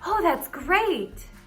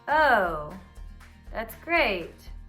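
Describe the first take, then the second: First: It is said in an excited, enthusiastic tone. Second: It is said in a suspicious, doubtful tone. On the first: "That sounds exciting"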